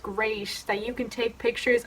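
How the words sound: The tone sounds sarcastic and mocking. The speaker does not really think it is great. "That sounded really sarcastic"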